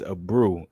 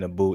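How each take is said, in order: First: It is said with an R sound. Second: It is said without an R sound. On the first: The speaker calls it right. "I didn't see the R" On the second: The speaker calls it wrong. "I've been saying his name wrong"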